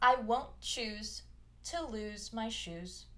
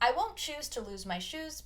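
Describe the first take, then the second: First: The sentence is spoken at a slower pace. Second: The sentence is spoken at a faster pace.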